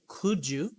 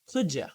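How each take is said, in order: First: The word 'you' is said in full. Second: The word 'you' is reduced to 'ya'. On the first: "instead of saying could you" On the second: "you would say could ya"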